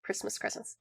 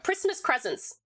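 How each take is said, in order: First: A soft private echo; breathy whispered aside; whispered repeat. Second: Said in the usual way. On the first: Shown as a demonstration. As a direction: whisper Christmas presents under the breath.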